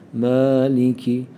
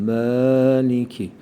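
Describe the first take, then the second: First: The first vowel sounds like an open 'a'. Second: The same.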